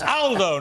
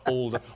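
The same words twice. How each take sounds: First: The name is said with an Italian pronunciation. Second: The name is said with a British pronunciation. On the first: The speaker calls it right. "Got it right this time" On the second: The speaker calls it wrong. "Aldo's a very British pronunciation of an Italian name"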